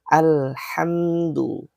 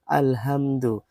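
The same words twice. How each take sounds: First: The h is a raspy, tense throat sound. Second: The h is a plain, light breath. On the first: The speaker calls it right. "makhraj yang tepat untuk ayat ini adalah ha, ha pedas" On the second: The speaker calls it wrong. "masih kurang tepat ... itu salah"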